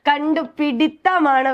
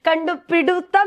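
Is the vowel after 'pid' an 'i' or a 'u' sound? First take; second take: i; u. First: The vowel after 'pid' is an 'i' sound. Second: The vowel after 'pid' is a 'u' sound. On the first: The speaker calls it right. "കണ്ടുപിടിത്തമാണ് വരുന്നത്" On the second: The speaker calls it wrong. "എന്ന് പറയില്ല"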